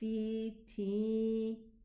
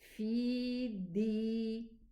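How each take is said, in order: First: The consonant is breathy and sounds like t. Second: The consonant is a held-breath d sound. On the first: The speaker calls it wrong. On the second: The speaker calls it right. "I hold my breath while I'm pronouncing the dal kasra"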